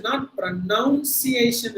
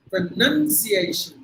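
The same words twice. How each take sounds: First: Pronunciation with a plain long A before shun; teacher shows the wrong pronunciation, slow. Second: Very slow pronunciation with an ay glide before shun; teacher drills the correct ending, very slowly; right way. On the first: Wrong pronunciation said slowly. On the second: Correct diphthong, said very slowly. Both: Shown as a demonstration. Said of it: "not pronunciation இல்ல".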